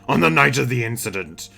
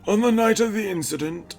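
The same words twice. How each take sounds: First: It is said in the judge's put-on voice. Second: It is said without the judge's put-on voice.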